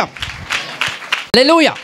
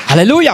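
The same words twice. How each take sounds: First: Drawn-out chanted hallelujah. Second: Hallelujah call. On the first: Preacher to congregation, a long sung-out hallelujah. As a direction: stretch it long and high, almost sung. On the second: Preacher calls out to congregation. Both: Real, not acted.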